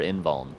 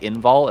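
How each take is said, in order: First: The word ends with a final n sound. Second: The word ends without a final n sound. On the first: "I want one more letter to come out" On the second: "Invul with no N"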